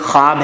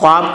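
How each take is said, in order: First: The w sound is silent after the kh. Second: A w sound is heard after the kh. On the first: The speaker calls it right. "ये वाव पढ़ा नहीं जाता" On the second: The speaker calls it wrong. "अगर इसको कोई ख्वाब कहे तो गलत हो जाएगा"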